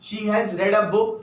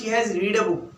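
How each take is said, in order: First: The word read is said with a short e. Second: The word read is said with a long ee. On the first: The speaker calls it right. "Second और third form की pronunciation है वो रेड है" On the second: The speaker calls it wrong. "आप ये नहीं बोलोगे ... ये टोटली रॉन्ग"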